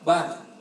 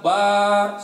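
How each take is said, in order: First: The vowel after b is kept short. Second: The vowel after b is drawn out long. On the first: The speaker calls it right. "ba-nya harus pendek" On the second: The speaker calls it wrong. "lafaz ba-nya lafaz akbar nggak boleh dipanjangin. Contoh, ... salah"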